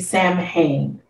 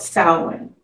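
First: The word is pronounced the way it is spelled. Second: The word is pronounced unlike its spelling. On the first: The speaker calls it wrong. "with it being spelled, you would say Samhain" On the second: The speaker calls it right. "It is called Samhain"

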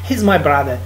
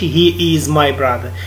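First: He is is shortened to one syllable. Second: He is is said as two full words. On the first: "ملي كيهضروا بالزربه كيستعملوا هذه" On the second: "ما كيقولوش he is my brother"

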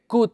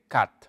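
First: The vowel is longer, with the mouth less open. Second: The vowel is short, with the mouth more open. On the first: The speaker calls it wrong. "no se dice cut" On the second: The speaker calls it right. "un poquito más rápido, y es un poquito la boca más abierta"

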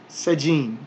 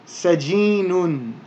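First: The word ends on a plain n sound. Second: The word ends with an extra -un syllable. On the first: The word is said on its own, without its ending. "we don't need to pronounce those ending diacritical marks" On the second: The word is read with its full grammatical ending. "our word here is sajinun"

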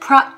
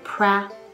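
First: The vowel is an open 'ah' sound. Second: The vowel sits between 'e' and 'a'. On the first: The speaker calls it wrong. "a pra ではなくて" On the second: The speaker calls it right. "えとあの間のa cat もしくはCanada と同じで"

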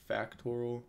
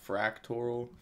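First: No r sound follows the first f. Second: An r sound follows the first f. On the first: The speaker calls it right. "So it's super factorial, not fractorial" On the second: The speaker calls it wrong. "everyone keeps saying I say this wrong ... because I say fractorial"

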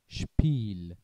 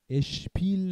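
First: The word starts directly with the sh sound. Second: A short vowel is added before the sh sound. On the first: The speaker calls it right. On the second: The speaker calls it wrong.

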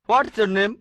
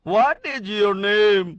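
First: Said in an English style, with the contraction. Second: Said in an Indian style, without the contraction. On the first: "কোন ইংরেজ লোক" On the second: "ইন্ডিয়ানরা একভাবে বলে"

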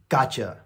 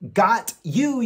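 First: The words blend into one reduced 'gotcha'. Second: The two words are said fully and separately. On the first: The speaker calls it right. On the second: The speaker calls it wrong. "got you より"

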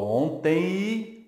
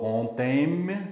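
First: The word ends in a nasal i-like glide. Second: The final m is pronounced as a consonant. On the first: The speaker calls it right. "eu falo ontem, o som é de I" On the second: The speaker calls it wrong. "eu não falo ontem"

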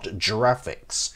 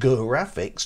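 First: It begins with a soft G sound. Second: It begins with a hard G sound. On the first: The speaker calls it wrong. "not giraffics, which sounds like something that a giraffe would do" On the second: The speaker calls it right. "that's pronounced graphics"

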